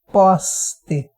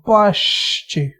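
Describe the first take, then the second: First: The s sounds like a hissing s. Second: The s sounds like a hushing sh. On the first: "S com som de S" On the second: "S com som de X, um som um pouquinho mais chiado"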